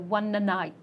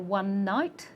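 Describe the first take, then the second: First: An extra vowel sound comes between the words. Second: The two words join with no extra vowel. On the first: The speaker calls it wrong. "and you say one night" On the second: The speaker calls it right. "You want to say one night"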